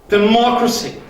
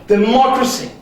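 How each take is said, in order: No difference in how they are said.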